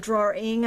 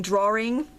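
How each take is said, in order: First: DRAWING without the extra R, as draw-ing; careful pronunciation. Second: DRAWING said with an extra R, as draw-ring; intrusive R. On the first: Crafter giving the corrected word, DRAWING as draw-ing. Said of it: "instead of drawing". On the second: Crafter quoting the word she was teased for, DRAWING as draw-ring. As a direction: slip an R into the middle of DRAWING. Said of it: "hard time about saying drawing". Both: Shown as a demonstration.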